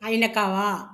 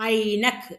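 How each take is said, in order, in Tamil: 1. சொல்லின் கடைசியில் ஒரு உயிரெழுத்து சேர்க்கப்பட்டுள்ளது. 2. சொல் கடைசி மெய்யெழுத்தில் முடிகிறது. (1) "ஐநக்காவும் வேணாம்" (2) "இக்கு இங்கிச்சு வச்சு சொல்லிக்கோ"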